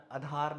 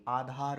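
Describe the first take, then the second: First: आधार with the first vowel cut to short a; common mispronunciation. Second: आधार with a long initial aa; correct pronunciation. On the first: Teacher showing the wrong form, आधार starting on short a. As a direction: say आधार as "a-dhaar". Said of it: "अगला आधार नहीं". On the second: Teacher correcting, आधार starting on long aa. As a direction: say आधार as "aa-dhaar". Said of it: "आधार होता है". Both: Shown as a demonstration.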